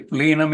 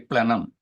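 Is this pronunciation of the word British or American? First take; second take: British; American. First: The word is said with a British pronunciation. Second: The word is said with an American pronunciation. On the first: "We say plenum in British English" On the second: "in American English, they say plenum"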